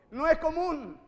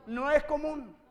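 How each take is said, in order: Both takes have the same delivery.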